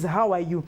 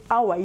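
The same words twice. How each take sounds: First: The h sound at the start is pronounced. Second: The h sound at the start is dropped. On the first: "It is how are you?" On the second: "I can't say how are you?"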